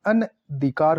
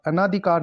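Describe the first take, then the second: First: Said in the usual way. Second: अनाधिकार with long naa; mispronounced अनधिकार. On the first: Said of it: "अनधिकार होता है". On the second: Shown as a demonstration. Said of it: "अनाधिकार नहीं होता".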